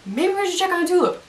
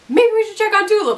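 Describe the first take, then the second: First: Hinting. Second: "Maybe we should check on Tulip" said higher and louder, pressing the hint; Cassidy pressing a hint on Jesse, higher and more insistent; pointed hinting. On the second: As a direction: push the hint harder, higher. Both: Retold or imitated. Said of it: "like, hinting and hinting".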